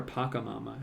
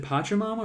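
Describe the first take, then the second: First: "Pacamama" with a k sound, PAH-ka-mama; hard K in Pacamama. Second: "Pachamama" with a ch sound, PAH-cha-mama. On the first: Painter checking how the name is said, "Pacamama" with k. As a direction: say the middle of "Pacamama" as "ka". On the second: Painter checking how the name is said, "Pachamama" with ch. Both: Shown as a demonstration. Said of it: "Is it Pachamama or Pacamama?".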